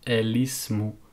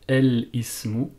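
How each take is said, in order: First: The l runs straight into ismu without break. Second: The l stops, with a break before ismu. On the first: The speaker calls it right. "on va vraiment lier et lire continuellement le mot" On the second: The speaker calls it wrong. "nous n'allons pas dire el ismu en faisant un soukoun sur le lam"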